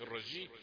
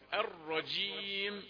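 First: The j sound is light and weak. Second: The j sound is strong and tense. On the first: The speaker calls it wrong. "ما تقولش الرجيم، جي جي خفيفة ضعيفة" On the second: The speaker calls it right. "شدد الجيم"

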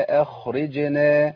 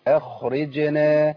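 The two takes are said the same way.

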